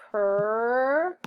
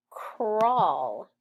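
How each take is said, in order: First: "Cur-all" stretched into sounds, higher and louder; sounding out. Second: Said in the usual way. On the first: Shown as a demonstration. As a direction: break "Cur-all" apart slowly. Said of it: "A W says ah". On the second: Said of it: "Cur-all".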